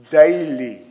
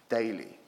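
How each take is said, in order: First: Daily, landed hard with the voice up; stressed loudly. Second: Daily dropped to a soft echo; quiet repeat, almost to himself. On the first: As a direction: daily hit loud and firm. Preacher stresses daily prayer. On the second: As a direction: let Daily fall away softly. Echoing daily softly. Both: Real, not acted.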